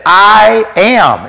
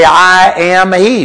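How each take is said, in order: First: "I am" high and weighty, stopping firmly after "am"; emphatic I AM. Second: "I am he" slow and higher, carried through to "he"; full phrase with HE. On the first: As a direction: declare "I am" with both words stretched out. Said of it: "What he actually said". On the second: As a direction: say "I am he" deliberately, each word weighted. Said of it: "the word he is italicized". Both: Shown as a demonstration.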